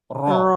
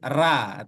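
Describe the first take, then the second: First: The vowel sounds like a full rounded 'o'. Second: The vowel sounds like an open thin 'a'. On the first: The speaker calls it right. "tapi ro" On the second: The speaker calls it wrong. "tak boleh"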